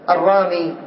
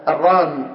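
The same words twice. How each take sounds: First: "الرامي" ending in ee, ar-raamee; final ya kept. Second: "الرام" closing on m, ar-raam; final ya dropped. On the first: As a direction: stop on "الرامي" with the ya sounded. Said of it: "تقف على الياء بالسكون". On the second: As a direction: stop on "الرام" at the m, no ee. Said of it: "ولك أن تحذف الياء". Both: Shown as a demonstration.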